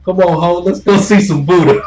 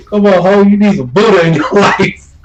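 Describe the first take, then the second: First: High, loud sing-song come-on; mock bar girl call. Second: Higher, louder sing-song come-on with a rising "ho"; mock bar girl call. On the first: Imitating a bar girl luring a sailor, high and loud. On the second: Repeating the bar girl's pitch to a sailor, high and loud.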